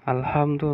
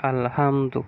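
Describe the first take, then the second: The two takes are said the same way.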